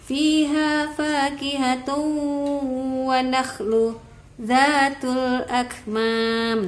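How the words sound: There is a brief pause after nakhlu. The speaker calls it wrong. "itu ada saktah di nakhlunya"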